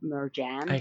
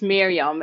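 First: The j is a hard English j. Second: The j is soft and nearly silent. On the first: The speaker calls it wrong. "which is because the way it's written, but it's not the way it should sound" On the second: The speaker calls it right. "in Dutch, it's Miriam. It's because the J in Dutch is like silent"

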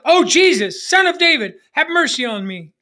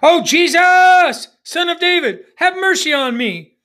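First: It is said less loudly. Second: It is said more loudly.

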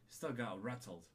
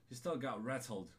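Both takes have the same delivery.

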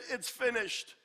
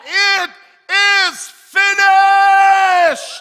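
First: It is said weakly, in an exhausted voice. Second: It is shouted loudly and strongly.

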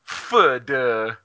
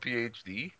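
First: It is said as one word, foo-doo. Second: It is said as three separate letters. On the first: The speaker calls it wrong. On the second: The speaker calls it right.

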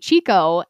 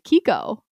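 First: The word begins with a ch sound. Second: The word begins with a k sound. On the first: This is how the speaker habitually says it. The speaker calls it wrong. "I say Chico" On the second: This is the actual pronunciation. The speaker calls it right. "I guess it's actually Kiko"

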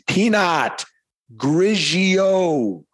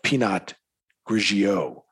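First: It is said slowly and loudly. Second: It is said at a normal pace and volume.

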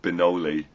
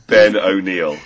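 First: The name ends with a short 'lee' sound. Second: The name ends with a long 'neel' sound. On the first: The speaker calls it wrong. "You didn't say that last one right. You said Benoli" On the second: The speaker calls it right. "it actually looks to me like Ben O'Neill"

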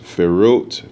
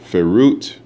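First: The word begins with an F sound. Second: The same.

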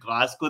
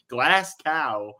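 First: The name is said the local way. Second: The name is said the American way. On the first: The speaker calls it right. "It's like Glasgow" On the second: The speaker calls it wrong. "The amount of Americans like"

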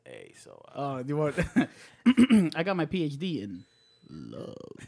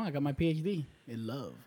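First: It is said in an exaggerated put-on voice. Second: It is said in an ordinary speaking voice.

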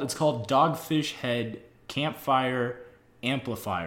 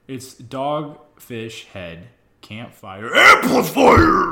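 First: It is said flatly, without emphasis. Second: It is said with loud, excited energy.

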